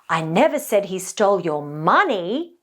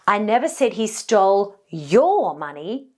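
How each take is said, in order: First: The stress falls on the word money. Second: The stress falls on the word your. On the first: He may have taken something other than money. "now this implies that maybe he stole something else completely" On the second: He may have taken someone else's money. "this now implies that maybe he stole somebody else's money"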